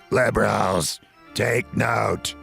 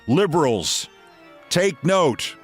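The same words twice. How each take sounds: First: It is said in an imitated, put-on voice. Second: It is said in the speaker's ordinary voice.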